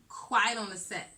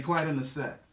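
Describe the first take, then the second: First: Mock host announcement; quoting his set call; imitating host cue. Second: Loud host cue. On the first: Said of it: "You always say". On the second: Acted. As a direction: announce it loudly to start. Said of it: "Since you're ready".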